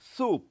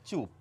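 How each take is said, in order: First: The word begins with an 's' sound. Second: The word begins with a 'ch' sound. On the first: This shows a particular region's local pronunciation. "আর এই বিন্দুওয়ালা চকে কিভাবে উচ্চারণ করি?" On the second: This is the usual standard pronunciation. "এগুলি কিভাবে উচ্চারণ করি আমরা প্রায় প্রত্যেকে?"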